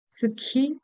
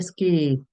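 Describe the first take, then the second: First: The k sound is aspirated with a puff of air. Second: The k sound is tense without a puff of air. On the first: The speaker calls it wrong. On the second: The speaker calls it right.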